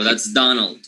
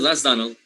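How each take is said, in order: First: The name is said with strong, weighty emphasis. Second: The name is said plainly, without extra emphasis. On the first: The person is famous and important. The speaker calls it wrong. "you will not make like the im- the, the emphasis to make to give this this person an importance" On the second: The person is just an ordinary acquaintance. The speaker calls it right. "You simply"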